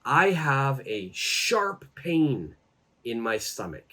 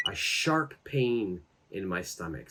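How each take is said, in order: First: Slow, clear teacher demo; slow model phrase. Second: Said in the usual way. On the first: Shown as a demonstration. Teacher modelling the phrase slowly for students, slow and clear. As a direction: spell it out slowly for learners. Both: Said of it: "you could say".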